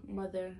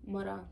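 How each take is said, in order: First: Said in the usual way. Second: Softer Saint Thomas pronunciation of "mora"; Virgin Islands accent. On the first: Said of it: "into the stateside version of speaking". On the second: Shown as a demonstration. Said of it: "my accent".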